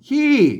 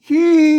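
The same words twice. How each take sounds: First: It is said with the ordinary Thai falling tone. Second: It is said with a special northern falling tone. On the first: "ถ้าเป็นไอ้ภาษาไทยแล้วเปิ้นออกว่าขี้นะครับขี้อ่าเสียงโทปกติ" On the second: "อันนี้เสียงโทพิเศษนะครับ"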